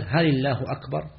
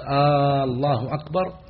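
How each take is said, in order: First: "هل الله أكبر؟" with a questioning rise at the end; asking a question. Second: Long "آه" then a rise on "أكبر", slow; questioning aah before Allah. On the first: Teacher explaining what the wrong call means, asking. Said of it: "كان يقول". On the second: Teacher demonstrating the wrong call to prayer, slow and rising. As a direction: turn "آه الله أكبر" into a question. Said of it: "إذن إذا قال". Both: Shown as a demonstration.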